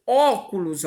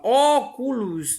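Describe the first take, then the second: First: Said in the usual way. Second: Óculos slowly drawn out with a long, strong "ó"; stressed first syllable. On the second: Shown as a demonstration. Teacher sounding out óculos for pupils, long stressed first syllable. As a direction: stretch the opening "ó" of óculos. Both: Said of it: "a sílaba tônica aqui é o ó".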